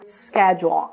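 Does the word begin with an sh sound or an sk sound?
sk. It begins with an sk sound. "Mas no inglês americano"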